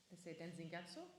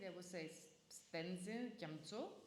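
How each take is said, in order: First: The name is said without an m before tso. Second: The name is said with an m before tso. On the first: This is the standard spoken Tibetan form. "in normal spoken Tibetan" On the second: This is the Ladakhi form. "In Ladakhi"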